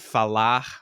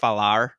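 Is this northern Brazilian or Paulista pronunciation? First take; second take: northern; Paulista. First: The final R is not like an American R. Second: The final R sounds like an American R. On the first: "how I would say it with the northern kind of accent" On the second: "they say the R's at the end of um, words like an American"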